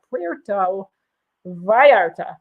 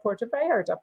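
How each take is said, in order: First: PUERTO, then VALLARTA, slowly sounded out in tentative Spanish; attempted Spanish accent. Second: Said in the usual way. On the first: Shown as a demonstration. Host trying to say the port properly, attempted Spanish accent. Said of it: "sounds like a terrible accent". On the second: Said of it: "Wanda could say it much".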